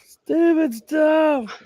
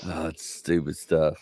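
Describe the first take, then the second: First: Much higher and very slow, stretched; high slow mock echo of stupid stuff; high drawn-out repeat. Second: Said in the usual way. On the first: Real, not acted. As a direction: squeal it out slowly, much higher. Repeats phrase in marked way.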